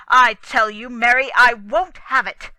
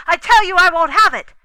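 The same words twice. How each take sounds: First: Louder furious demand at his wife; angry shout. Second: Higher, much louder, fast furious yell; angry shout. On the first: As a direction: lay down the law, loudly. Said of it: "John repeated the words". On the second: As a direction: bellow it at her from the dream. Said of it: "and to go shouting out". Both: Acted.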